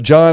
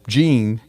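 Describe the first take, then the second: First: The name is said with an 'ah' vowel. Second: The name is said with an 'ee' vowel. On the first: The speaker calls it right. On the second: The speaker calls it wrong.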